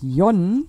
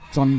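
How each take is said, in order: First: The name is pronounced the German way. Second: The name is pronounced the English way. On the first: "Auf Deutsch gesagt" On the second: "Wobei ich dann doch lieber bei John bleibe"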